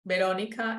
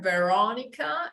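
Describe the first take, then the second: First: The R is soft, made in the mouth. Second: The R is throaty, felt in the chest. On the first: "Verónica en español" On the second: "Veronica in English"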